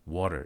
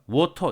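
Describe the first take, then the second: First: The t is a quick tongue tap. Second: The t is a full, plain t sound. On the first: "미국 영어에서 water, water 이렇게 얘기했다. 그랬을 때 이것은 flap되었다" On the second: "설탄이 아니죠"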